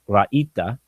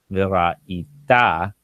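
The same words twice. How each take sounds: First: Ra'ita with the stress on the middle syllable, the E sound. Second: V'ra'ita with the stress pushed onto the final syllable; stress at the end. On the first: Teacher showing the ordinary form ra'ita with stress on the E. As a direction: say ra'ita leaning on the E, not the end. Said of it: "and the stress would be on E". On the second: Teacher showing students the final stress of v'ra'ita. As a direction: land v'ra'ita on its last syllable. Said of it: "helping me know that the stress is at the end". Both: Shown as a demonstration.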